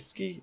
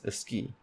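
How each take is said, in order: First: It starts directly with the s sound. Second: A short vowel is added before the s.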